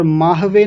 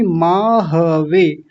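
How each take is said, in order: First: "माहवे" squeezed to maah-ve; wrong dropped vowel. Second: "माहवे" slow, as maa-ha-ve; full vowel. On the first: Teacher showing the error to avoid, clipped ह in "माहवे". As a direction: say "माहवे" with no a after ह. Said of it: "नहीं". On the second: Teacher correcting students, slow full ह in "माहवे". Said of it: "ह को भी पूरा बोलेंगे". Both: Shown as a demonstration.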